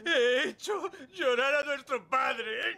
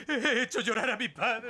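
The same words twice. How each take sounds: First: High, slow, sobbing confession. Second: High, teary voice breaking into a laugh; half laughing, half crying at his own guilt; starting to cry. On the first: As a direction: blubber it out in full tears. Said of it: "Pues yo sí". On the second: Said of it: "lloro porque tú estás llorando". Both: Acted.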